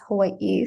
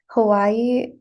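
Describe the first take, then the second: First: A glottal break comes before the last vowel. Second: The word is said with no glottal break. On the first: "the real pronunciation" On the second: "is how most people pronounce it"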